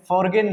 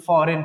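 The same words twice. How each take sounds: First: फॉरगेन with a hard g after the r; g wrongly sounded. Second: फॉरेन with no g, "fo-ren"; silent g. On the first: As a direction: mispronounce it as फॉरगेन, "for-gen". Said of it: "फॉरगेन नहीं बल्कि". (फॉरगेन, जी का गलत उच्चारण) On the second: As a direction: say फॉरेन, r straight into the vowel. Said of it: "बल्कि फॉरेन पढ़ना है". (फॉरेन में जी silent) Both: Shown as a demonstration.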